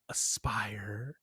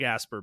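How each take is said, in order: First: The name ends with a 'fire' sound. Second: The name ends with a short 'er' sound. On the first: The speaker calls it right. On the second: The speaker calls it wrong.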